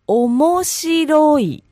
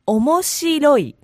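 First: It is said slowly and carefully. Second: It is said at normal speed.

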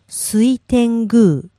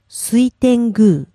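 First: It is said slowly. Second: It is said fast.

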